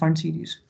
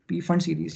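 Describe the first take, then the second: First: The opening P sound is silent. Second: The opening P sound is pronounced. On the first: "पी रहता है इसमें silent" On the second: "या बोल भी सकते हो"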